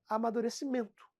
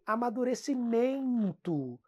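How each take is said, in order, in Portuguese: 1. O final é uma única vogal nasal, soando como 'mento'. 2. Acrescenta-se um glide i extra: o final soa como 'meinto'. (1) "Não tem outro som vocálico. É só um som" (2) "aquele cara com sotaque muito marcado lá de São Paulo. Que fala assim"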